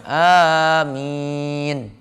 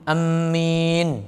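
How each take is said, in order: First: The first vowel and the i are both long. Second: The m sound is doubled and held. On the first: The speaker calls it right. "a-nya panjang, mi-nya panjang" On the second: The speaker calls it wrong. "Mimnya ditasdid. Itu salah"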